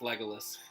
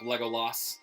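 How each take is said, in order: First: The name is said in a plain, normal way. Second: The name is exaggerated and overpronounced. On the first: The speaker calls it right. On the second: The speaker calls it wrong.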